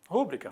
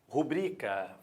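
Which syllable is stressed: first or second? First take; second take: first; second. First: The stress is on the first syllable. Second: The stress is on the second syllable. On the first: The speaker calls it wrong. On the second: The speaker calls it right.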